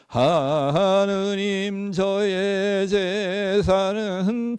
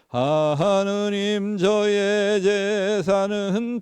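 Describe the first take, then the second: First: The phrase is read very slowly and drawn out. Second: The phrase is read at a steady, unhurried normal pace. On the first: The reader runs out of breath. The speaker calls it wrong. "천천히 하면은 ... 이렇게 하면 안 돼요" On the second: The reader keeps enough breath to finish. The speaker calls it right. "저는 이렇게 얘기하다가도"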